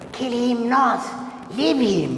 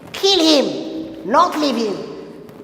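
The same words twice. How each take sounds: First: The pause comes after the word not. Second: The pause comes after the first him. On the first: The person must not be killed. "the first sentence, number one, kill him not, leave him means don't kill him" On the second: The person must be killed. "the second one, what is it? Kill him, not leave him"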